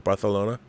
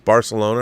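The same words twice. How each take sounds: First: It is said with a Spanish pronunciation. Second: It is said with an English pronunciation.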